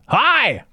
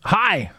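First: It is said with lively enthusiasm. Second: It is said flatly, without enthusiasm.

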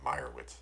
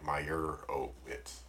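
First: The 'o' syllable is not stressed. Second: The 'o' syllable is stressed. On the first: "They just said" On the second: "They didn't really accentuate the O. It wasn't like"

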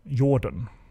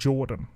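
First: The J is soft, like a Y sound. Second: The J is hard, as in English jam. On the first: "we don't have hard J's in the Swedish language, so I've always, by default, went with Jordan" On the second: "rather than Jordan"

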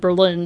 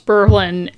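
First: It is said the usual way for the German city. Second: It is said the New Hampshire local way. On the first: It names the German capital. "I say that more than Berlin" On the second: It names the town in New Hampshire. "there's a city in New Hampshire that they pronounce Berlin"

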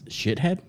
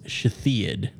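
First: It sounds like the ordinary English insult. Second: It sounds different from the ordinary English insult. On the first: The name is read the way it is spelled. The speaker calls it wrong. "wait, it can't be right. This is Shithead?" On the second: This is how the owner says the name. The speaker calls it right. "it's pronounced Shithead"

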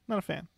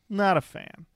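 First: It sounds relaxed and casual. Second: It sounds somewhat annoyed and emphatic.

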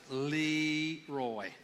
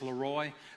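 First: The name is said the southern way. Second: The name is said the northern way.

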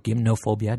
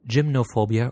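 First: The word has a Greek-style pronunciation. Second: The word has a plain English pronunciation.

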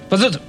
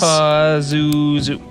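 First: It is said fast. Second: It is said at a normal speed.

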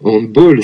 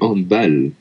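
First: The word is pronounced the English way. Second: The word is pronounced the German way.

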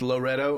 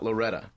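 First: The name ends with an 'oh' vowel. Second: The name ends with an 'ah' vowel. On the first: The speaker calls it right. "it's Loretto" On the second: The speaker calls it wrong. "not Loretta"

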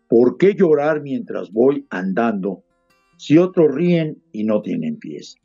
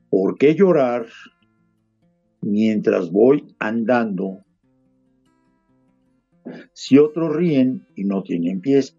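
First: The sentence is said at normal speed. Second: The sentence is said more slowly.

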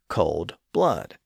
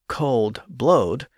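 First: Blood has a short 'uh' vowel. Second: Blood has the same long 'oh' as cold. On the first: This is the modern pronunciation. "we say cold blood" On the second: This is the old pronunciation. "instead of saying cold blood"

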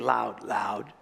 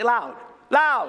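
First: It is said quietly and softly. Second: It is said loudly and forcefully.

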